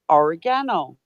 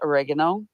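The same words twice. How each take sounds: First: It is said with a British pronunciation. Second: It is said with an American pronunciation. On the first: The speaker calls it right. "when it's actually or-" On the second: The speaker calls it wrong. "You pronounce it oregano"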